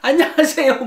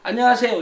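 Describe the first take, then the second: First: The greeting is said in a bright, lively way. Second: The greeting is said in a plain, ordinary way.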